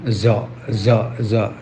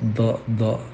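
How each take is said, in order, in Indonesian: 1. Terdengar seperti bunyi z yang halus dan mengalir. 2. Terdengar seperti bunyi d yang keras dan tertekan. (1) "sehingga diucapkan dengan za za za, itu akhirnya seperti huruf za" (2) "pojok lidah terlalu ditekankan ke pojok gigi"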